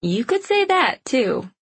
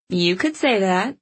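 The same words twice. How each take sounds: First: Knowing tease, high then falling; wise, wry comeback with a tease; sage and knowing. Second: Lightly teasing, rising at the end; a touch of forced playfulness; playful and light. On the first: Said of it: "gave him a sage look". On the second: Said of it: "She worked to make her voice playful and light". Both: A narrator's reading.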